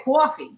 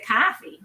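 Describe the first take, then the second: First: Coffee with a New York open aw, kwaw-fee; drawn-out Brooklyn kwaw-fee. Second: Coffee with a flat Boston ah, kah-fee; clipped Boston kah-fee. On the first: Guest showing the host how Brooklyn says it, New York accent. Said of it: "in Brooklyn, you say coffee". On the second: Guest contrasting how Boston says it, Boston accent. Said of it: "And in Boston, you say coffee". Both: Shown as a demonstration.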